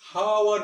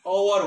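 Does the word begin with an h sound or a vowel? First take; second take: h sound; vowel. First: The word begins with an audible h sound. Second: The word begins directly with a vowel sound. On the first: The speaker calls it wrong. "hour नहीं होता" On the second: The speaker calls it right. "ये hour होता है, जैसे ये A U hour होता है"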